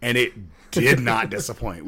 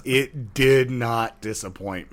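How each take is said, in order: First: A chuckle breaking up did not disappoint; amused first take with a laugh inside; laughing through it. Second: It did not disappoint, slowed right down with weight on did; deliberate, savoring repeat for emphasis; slow emphatic. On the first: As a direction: say it while laughing, not yet emphatic. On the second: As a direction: stretch every word, lean on did and not. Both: Real, not acted.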